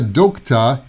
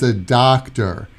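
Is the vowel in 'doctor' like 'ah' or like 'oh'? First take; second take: oh; ah. First: The first vowel sounds like a rounded 'oh'. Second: The first vowel sounds like an open 'ah'. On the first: The speaker calls it wrong. "it's not a doctor" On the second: The speaker calls it right. "It's an ah sound"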